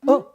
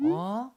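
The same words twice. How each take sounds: First: Quick, sharp startled "huh". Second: Slow, drawn-out "huh"; delayed reaction. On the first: Shaman imitating a possessed client's reflex, startled. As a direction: jump at once at the shout. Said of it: "깜짝 놀래요". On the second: Shaman imitating a mentally ill client, delayed reaction. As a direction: react late, without a jolt. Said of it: "좀 있다가". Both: Acted.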